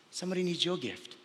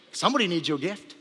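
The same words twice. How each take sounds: First: Markedly softer, falling at the end; hushed repetition. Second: Said in the usual way. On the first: Real, not acted. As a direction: drop the volume to drive it home. Last, hushed repetition for effect.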